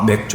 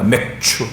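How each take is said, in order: First: The second syllable starts with a soft 'j' sound. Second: The second syllable starts with an aspirated 'ch' sound. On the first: It sounds like the word for beer. The speaker calls it wrong. "어떤 사람들은 이거를 잘못 읽어서" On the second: It refers to the barley harvest. The speaker calls it right. "그게 아닙니다. 맥추"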